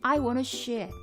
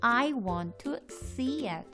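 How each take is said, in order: First: The word see starts with an sh sound. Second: The word see starts with a clear s sound. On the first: The speaker calls it wrong. "약간 쉬에 가까운 S 발음이 납니다" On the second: The speaker calls it right. "입을 양쪽으로 넓게 펼치면서 발음을 신경 써서"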